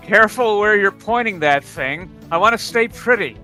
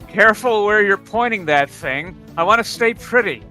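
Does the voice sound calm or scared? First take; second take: calm; calm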